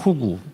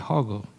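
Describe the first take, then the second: First: The name is said as 'hogu'. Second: The name is said as 'heogeu'. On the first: This is how the speaker would like to say it. "저는 호구라고 발음하고 싶은데" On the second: This is how other people say the name. "이걸 허그라고 발음하는 것 같아요"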